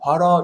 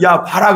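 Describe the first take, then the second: First: It is said plainly without force. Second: It is said strongly and forcefully.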